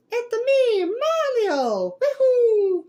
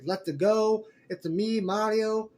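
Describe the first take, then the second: First: Very high, loud Italian cartoon hero; Mario's Italian voice. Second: Lightly imitated catchphrases, close to usual voice; Chris Pratt's Mario. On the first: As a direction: whoop it out in an exaggerated Italian squeal. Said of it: "if you hear the Italian voice". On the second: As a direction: quote the hero's catchphrases with only a hint of character. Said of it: "The way he said some of Mario's catchphrases".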